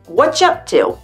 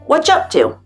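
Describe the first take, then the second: First: The word 'are' is dropped entirely. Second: The word 'are' is dropped entirely.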